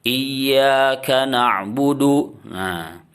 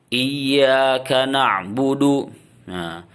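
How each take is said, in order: The two takes are said the same way.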